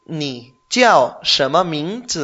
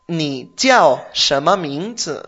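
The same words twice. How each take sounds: First: Ni jiao shema mingzi slow, jiao rising as a question; slow Mandarin demo, rising end. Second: Ni jiao shema mingzi said slowly, jiao falling; slow Mandarin demo. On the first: Teacher repeats the question slowly, ending up. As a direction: ask it slowly with a lift on jiao. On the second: Teacher models the question slowly for the learner. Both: Shown as a demonstration. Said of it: "¿Cómo se dice".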